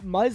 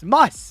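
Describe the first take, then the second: First: The name ends with a buzzing z sound. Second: The name ends with a hissing s sound. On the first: The speaker calls it wrong. "Muzz like Buzz?" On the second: The speaker calls it right. "Like Bus, but mu- Mus"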